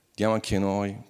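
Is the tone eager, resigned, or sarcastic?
resigned. It sounds resigned and gloomy. Say goodbye to friends, it is over. "salutate gli amici, è finita"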